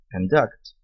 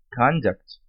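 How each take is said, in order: First: Conduct stressed on the second syllable, conDUCT, with a reduced first vowel; verb stress. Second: Conduct stressed on the first syllable, CONduct; noun stress. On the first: (Conduct com tônica na segunda sílaba, conDUCT) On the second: (Conduct com tônica na primeira sílaba, CONduct) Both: Shown as a demonstration. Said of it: "sílaba tônica diferente".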